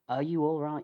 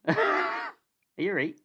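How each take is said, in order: First: It is said in a neutral, standard accent. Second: It is said in a broad northern English accent. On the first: "For for anyone outside of the north of England" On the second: "with the northern accent"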